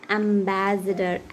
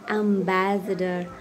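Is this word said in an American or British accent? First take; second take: British; British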